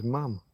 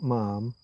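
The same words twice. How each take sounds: First: Ma'am said with a short a, like ham; ma'am rhyming with ham. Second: Ma'am said with a long ah, like farm; ma'am rhyming with farm. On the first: Explaining how the Queen said it, ma'am like ham. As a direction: say ma'am as mam, short flat a. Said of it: "She would say it was ma'am". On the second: Showing the wrong way to say it, ma'am like farm. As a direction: say ma'am as marm, long broad a. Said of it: "not with farm". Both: Shown as a demonstration.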